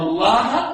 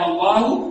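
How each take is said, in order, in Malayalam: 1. ഈ വാക്ക് 'a' സ്വരത്തിലാണ് അവസാനിക്കുന്നത്. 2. ഈ വാക്ക് 'u' സ്വരത്തിലാണ് അവസാനിക്കുന്നത്. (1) "ഹർക്കത്തുകളെ മാത്രം മാറ്റിയിട്ട് അർത്ഥം മാറ്റും" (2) "കല്ലമ അല്ലാഹു മൂസ തക്ലീമ. അള്ളാഹു മൂസാ നബിയോട് സംസാരിച്ചു"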